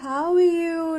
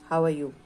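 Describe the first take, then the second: First: It is said in a warm, loving tone. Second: It is said in a strict, stern tone. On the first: "It could be very loving" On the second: "A very strict and, you know, tone"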